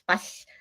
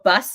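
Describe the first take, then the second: First: The final sound is slushy, air escaping sideways. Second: The final s sound is clear.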